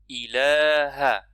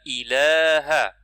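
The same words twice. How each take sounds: The two takes are said the same way.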